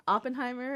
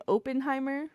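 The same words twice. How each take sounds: First: Said in the usual way. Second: "Oppenheimer" with a long O, as in "open"; alternative pronunciation. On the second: Shown as a demonstration. Host offering how some people say it, "Oppenheimer" as OPE-enheimer. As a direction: say "Oppenheimer" starting with OPE, questioning lift at the end. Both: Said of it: "or as some people say".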